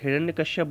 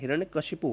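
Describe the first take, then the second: First: The name ends with a short 'ap' sound. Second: The name ends with a 'shipu' sound. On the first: The speaker calls it wrong. "गलत बोलते हैं" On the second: The speaker calls it right. "हिरण्यकशिपु होता है"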